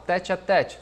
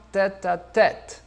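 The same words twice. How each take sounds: First: "tête à tête" the Brazilian way, final t softened to "tchi"; Portuguese pronunciation. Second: Slow "tête à tête", open vowels, crisp final t; French pronunciation. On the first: Teacher recalls the familiar expression, "tête à tête" in Brazilian pronunciation. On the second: Teacher models the French expression, "tête à tête" slow and open. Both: Shown as a demonstration. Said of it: "no francês um pouquinho diferente a pronúncia".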